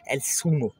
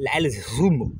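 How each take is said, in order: First: The z is said like a hissing s. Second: The z is said with tongue between teeth. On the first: This is how it is said in Latin America and southern Spain. "Z et C se prononcent comme le S français" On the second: This is how it is said in most of Spain. "avec la langue entre les dents"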